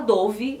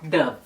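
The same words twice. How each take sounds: First: It is said with a Brazilian Portuguese pronunciation. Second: It is said with a Spanish pronunciation. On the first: This is how it is said in Brazil. "no Brasil a gente fala Dove" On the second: This is how it is said in Spanish-speaking countries. "Eles falam Dove"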